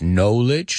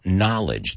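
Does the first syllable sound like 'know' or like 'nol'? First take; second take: know; nol. First: The first syllable sounds like 'know'. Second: The first syllable sounds like 'nol'. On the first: The speaker calls it wrong. "No es knowledge" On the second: The speaker calls it right. "sino knowledge"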